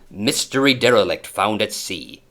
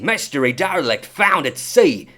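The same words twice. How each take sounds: First: It is read in the speaker's plain accent. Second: It is read in a put-on Australian accent.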